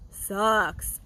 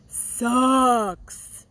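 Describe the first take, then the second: First: Said in the usual way. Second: "sucks" stretched long and pushed louder; drawn-out emphatic sucks. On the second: Shown as a demonstration. Venting to fellow groomers about paperwork, "sucks" drawn out loud. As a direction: lean hard on "sucks" and drag it out.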